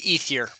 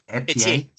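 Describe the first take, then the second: First: It is said with an anglicized pronunciation. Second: It is said with a French pronunciation.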